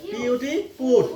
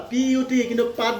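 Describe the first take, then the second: First: "পুত" with a rounded oo vowel; correct reading. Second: "পাত" with an open aa vowel; mistaken reading. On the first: Teacher shows learners the exception word, "পুত" with oo. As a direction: spell put, then say "পুত" with oo. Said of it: "P ইউ T কিন্তু পাত বুলি নপঢ়ে". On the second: Teacher warns learners against this reading, "পাত" with aa. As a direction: misread put as "পাত", with aa. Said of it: "পাত বুলি নপঢ়ে". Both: Shown as a demonstration.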